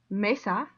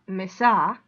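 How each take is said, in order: First: The stress is on the first syllable. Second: The stress is on the last syllable. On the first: The speaker calls it right. "it's mesa" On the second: The speaker calls it wrong. "not mesa"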